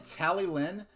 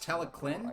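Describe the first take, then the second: First: The double L is said as a plain L. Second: The double L is said with a K-like sound. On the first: "he pronounces it Tallylin" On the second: "in Welsh the double L sound makes sort of a K or a C sound"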